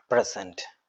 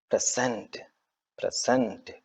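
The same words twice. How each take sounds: First: present with weight on the opening പ്ര; stress on first syllable. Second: present with cent stressed and drawn out; stress on second syllable. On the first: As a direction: say present as PRE-sent. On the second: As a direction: say present as pre-SENT, softly. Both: Shown as a demonstration. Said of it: "stress ഉപയോഗിക്കുന്ന syllable-ിനെയാണ്".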